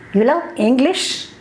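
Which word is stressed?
English. The stress falls on the word English. The listener was expected to love another language. "I thought you love German"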